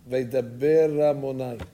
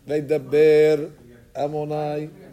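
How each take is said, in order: First: The words run together, with the aleph swallowed. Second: The two words are kept separate. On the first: The speaker calls it wrong. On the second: The speaker calls it right.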